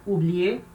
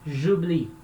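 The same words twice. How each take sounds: First: "oublier" as ou-bli-É; sounded infinitive ending. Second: "j'oublie" ending on I; silent final E. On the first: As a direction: voice the final É of "oublier". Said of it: "o verbo é oublier". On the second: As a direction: finish "j'oublie" as jou-BLI. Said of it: "ele não tem som". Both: Shown as a demonstration.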